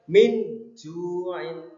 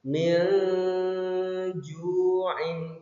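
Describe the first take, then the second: First: The n sound is pronounced fully and clearly. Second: The n sound is softened and blurred. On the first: The speaker calls it wrong. "Kalau jelas min ju'in itu salah" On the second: The speaker calls it right. "Jadi yang betul adalah disamarkan"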